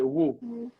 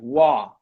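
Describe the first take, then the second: First: The vowel is a close oo sound. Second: The vowel is an open ah sound. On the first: "in his city, the O sounds like ooh" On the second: "for the American people, you have the ah sound"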